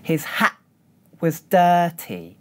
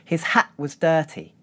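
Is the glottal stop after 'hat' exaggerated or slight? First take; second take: exaggerated; slight. First: The glottal stop after hat is held and exaggerated. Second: The glottal stop after hat is brief and subtle.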